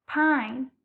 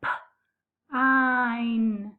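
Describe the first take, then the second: First: Said in the usual way. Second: Pine split into P and ein, tapped slowly; tapped-out word. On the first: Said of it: "That middle sound you hear is I". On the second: Shown as a demonstration. Teacher to young pupils, tapping out a word sound by sound. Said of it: "I'm gonna tap out pine".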